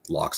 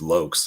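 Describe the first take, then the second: First: The vowel does not rhyme with blokes. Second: The vowel rhymes with blokes. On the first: The speaker calls it wrong. "so it's not Locks" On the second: The speaker calls it right. "it says it rhymes with blokes"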